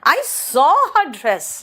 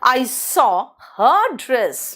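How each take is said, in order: First: The stress falls on the word saw. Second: The stress falls on the word her. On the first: "सॉ पर जोर दिया।" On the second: "हर लगाया तो समझ में आ गया कि हर का।"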